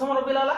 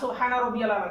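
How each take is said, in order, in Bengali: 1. বাক্যটি সংক্ষিপ্ত, ছোট করে বলা হয়। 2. বাক্যটি তার পূর্ণ রূপে বলা হয়। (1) "আপনারা কি বলতেন?" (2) "দুটোর মধ্যে পার্থক্য আছে না?"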